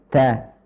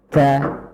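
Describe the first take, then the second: No difference in how they are said.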